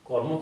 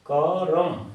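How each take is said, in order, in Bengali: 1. র সরাসরি ম-এর সঙ্গে মিশে যায়। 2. একটি পূর্ণ স্বরধ্বনি র ও ম-কে আলাদা করে। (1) "কর্ম বলতে আমরা রেফ ফলা প্রয়োজন" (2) "কর্ম কি বলতে পারি না, করম"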